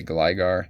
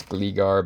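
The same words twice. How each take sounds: First: Gligar with a long i, GLY-gar; Gligar, first syllable rhyming with "eye"; GLY-gar pronunciation. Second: Gligar with a long ee, GLEE-gar; Gligar, first syllable rhyming with "see"; GLEE-gar pronunciation. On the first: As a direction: make Gligar start like "gly". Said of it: "a lot of people would say Gligar". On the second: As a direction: make Gligar start like "glee". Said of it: "I think it's Gligar". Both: Shown as a demonstration.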